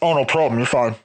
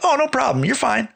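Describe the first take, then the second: First: It is said muffled, like Darth Vader. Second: It is said warmly with a smile.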